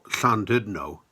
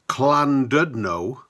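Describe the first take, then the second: First: The double L is a hissing Welsh sound. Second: The double L is a plain L sound. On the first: The speaker calls it right. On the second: The speaker calls it wrong.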